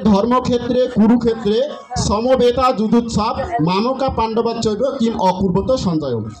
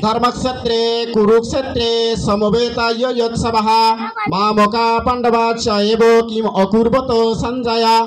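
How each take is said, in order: First: It is read with Bengali-style pronunciation. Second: It is read with Sanskrit-style pronunciation. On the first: The speaker calls it wrong. "এটা আমরা বাংলায় জানি, কিন্তু এটা সঠিক উচ্চারণ নয়।" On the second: The speaker calls it right. "সংস্কৃত ভাষায় বলি, তো উচ্চারণটা এরকম আসে"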